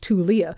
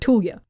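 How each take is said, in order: First: The name is said with three syllables. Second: The name is said with two syllables. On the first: "logically, you're going to pronounce all of those letters" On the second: "It's a two-syllable word"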